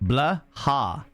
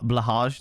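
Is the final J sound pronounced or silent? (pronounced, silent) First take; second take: silent; pronounced. First: The word ends without a J sound. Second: The word ends with a J sound. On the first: "the J is silent" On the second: "is that the correct pronunciation?"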